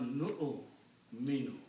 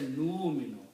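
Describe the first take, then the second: First: A glottal stop follows the first syllable. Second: A long u vowel replaces the glottal stop. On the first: The speaker calls it right. "Pronounce noon with a Hamza" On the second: The speaker calls it wrong. "Don't say nu minu"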